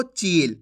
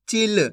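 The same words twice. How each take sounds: First: चील with a drawn-out ee, falling; wrong long ee. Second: चिल with a short i, then a separate l. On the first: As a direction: stretch the vowel in चील into a long ee. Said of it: "ऐसे नहीं पढ़ना आपको". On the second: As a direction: model चिल with the brief i of छोटी ई. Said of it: "कैसे पढ़ेंगे?". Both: Shown as a demonstration.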